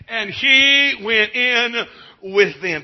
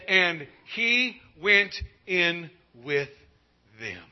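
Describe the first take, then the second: First: High, loud, slow, triumphant proclamation; ringing proclamation. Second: Slow, measured reading with no push; slow, drawn-out reading. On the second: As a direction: draw each word out gently. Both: Shown as a demonstration.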